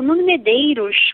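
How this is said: The name is said with a European Portuguese accent.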